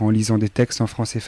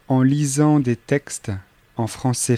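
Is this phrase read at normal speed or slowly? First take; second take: normal speed; slowly. First: The phrase is read at normal speed. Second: The phrase is read slowly.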